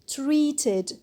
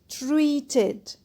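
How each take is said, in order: Both takes have the same delivery.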